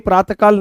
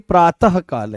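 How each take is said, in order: First: It is said without an h sound after praat. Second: It is said with an h sound after praat. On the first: The speaker calls it wrong. "ये प्रातकाल नहीं है" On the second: The speaker calls it right. "ये ह की ध्वनि दे रहे हैं"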